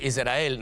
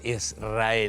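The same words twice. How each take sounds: First: The s sounds soft, almost like an r. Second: The s sounds hard and clear. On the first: "Pero vos decís Israel" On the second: "no decís Israel"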